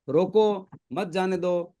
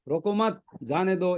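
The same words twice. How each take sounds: First: "रोको" set off alone, then "मत जाने दो" together; pause after रोको. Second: "रोको मत" joined with a rise on "मत", then "जाने दो"; pause after मत. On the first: ("रोको" के बाद विराम, फिर "मत जाने दो" साथ में) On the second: ("रोको मत" साथ में, "मत" के बाद विराम, फिर "जाने दो") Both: Shown as a demonstration. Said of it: "एक बिंदी दे दो".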